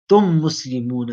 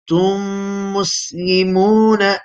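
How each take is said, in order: First: The merged m is short without a nasal hum. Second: The merged m is held with a nasal hum. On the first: The speaker calls it wrong. "I would be wrong because I've not done the nasalization" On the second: The speaker calls it right. "you do idgham with gunna"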